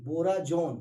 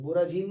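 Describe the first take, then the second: First: बोराजोन said with जो, the right name; बोराजोन with the o sound; correct name. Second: बोराजीन said as the wrong name, with जी; बोराजीन with the long ee sound. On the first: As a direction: say बोराजोन, stressing the जो. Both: Shown as a demonstration. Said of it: "बोराजीन नहीं".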